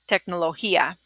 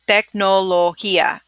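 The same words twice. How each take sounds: First: The word is said fast. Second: The word is said slowly.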